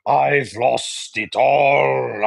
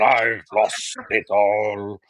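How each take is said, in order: First: Very slow mock Russian lament on all; Russian accent, drawn out. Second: Slow, softer mock Russian repeat; Russian accent, quieter echo. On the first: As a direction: stretch I've lost it all like a ruined Russian gambler. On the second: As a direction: let I've lost it all fall away, defeated. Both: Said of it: "Wasn't my best Russian impression".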